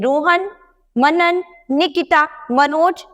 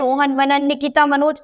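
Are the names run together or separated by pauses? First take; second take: separated by pauses; run together. First: Short pauses separate each of the names. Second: The names run together without pauses between them. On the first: Each name is clearly understood. The speaker calls it right. "थोड़ा थोड़ा सा विराम लेंगे तो यहाँ इनके नाम स्पष्ट हमें समझ में आ जाएंगे" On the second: The names blur and nobody can tell them apart. The speaker calls it wrong. "इस तरह से किसी को समझ में नहीं आएगा"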